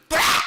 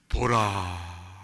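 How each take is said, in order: First: It is shouted loudly. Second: It is said softly and calmly.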